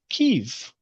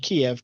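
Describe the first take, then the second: First: The name is said with the Ukrainian pronunciation. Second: The name is said with the Western pronunciation. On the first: It is the name the Ukrainians use themselves. The speaker calls it right. "which is their pronunciation of the word" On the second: It is the name foreign media use. The speaker calls it wrong. "the Western pronunciation"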